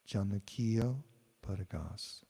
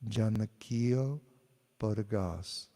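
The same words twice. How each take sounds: First: The phrase is said softly and quietly. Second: The phrase is said at normal loudness. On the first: "then I'll say it softly" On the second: "I'll say a phrase"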